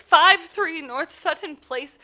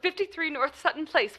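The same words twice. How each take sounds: First: "Five three" spelled out slowly, each word apart and louder; slow careful repeat. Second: Said in the usual way. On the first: Acted. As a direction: say it again slowly for the officer.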